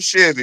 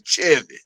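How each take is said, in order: First: It is said in a plain, ordinary voice. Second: It is said in a rough, gravelly throaty voice. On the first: The speaker calls it wrong. "Not a Chevy" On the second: The speaker calls it right. "You gotta say it with the grits in your throat"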